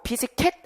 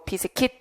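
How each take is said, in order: First: The last syllable has an 'e' vowel. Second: The last syllable has an 'i' vowel. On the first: The speaker calls it wrong. "비스켓 아니고" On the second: The speaker calls it right. "비스킷도 맞고"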